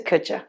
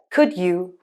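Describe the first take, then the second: First: The words blend into a quick 'could ya'. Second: Both words are said fully and clearly.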